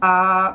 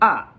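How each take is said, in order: First: The pitch stays high and level. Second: The pitch falls sharply from high to low. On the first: "There's the first tone" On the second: "and there's the fourth tone"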